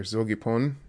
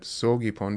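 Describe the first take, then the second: First: "zogipon" starting with a voiced z; initial Z sound. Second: "sogipon" starting with a hissed, voiceless s; initial S sound. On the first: Teacher showing the base word to learners, voiced z in "zogipon". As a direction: say "zogipon" with a buzzing first consonant. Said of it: "it gets turned into that sogipon". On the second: Teacher showing the changed word to learners, voiceless s in "sogipon". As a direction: say "sogipon" with s replacing the opening z. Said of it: "it gets turned into that sogipon because of the gi". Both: Shown as a demonstration.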